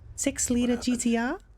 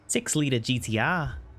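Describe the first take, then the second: First: An Australian accent in a put-on motherly voice. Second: An Australian accent in the speaker's normal voice. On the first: "But with the mommy voice" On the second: "just as an Aussie accent"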